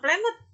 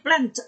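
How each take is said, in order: First: The -ed ending is an extra syllable. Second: The -ed ending adds no extra syllable. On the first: The speaker calls it wrong. "jangan planet" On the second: The speaker calls it right. "Plan itu juga sembunyi"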